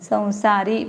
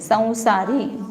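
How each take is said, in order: First: The first syllable has a nasalized vowel. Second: The same.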